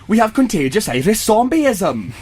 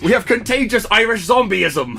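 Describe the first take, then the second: First: It is said in a Welsh accent. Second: It is said in an Irish accent.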